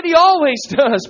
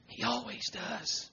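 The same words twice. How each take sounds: First: Raised, insistent preacher's declaration; emphatic repeat. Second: Very soft, slow near-whisper; hushed assurance. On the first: Preacher repeating the promise to congregation, emphatic. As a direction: proclaim it after the hush. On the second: Preacher assuring congregation Jesus hears, hushed. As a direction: let it drop almost to nothing. Hushed repeat before emphatic one. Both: Real, not acted.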